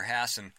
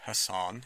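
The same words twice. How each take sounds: First: "Hassan" stressed on the first syllable; Anglicized "Hassan", HASS-en; first pronunciation. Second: "Hassan" stressed on the second syllable; "Hassan" with a long final ah; alternative pronunciation. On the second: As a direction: say "Hassan" as huh-SAHN. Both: Shown as a demonstration. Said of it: "if you prefer".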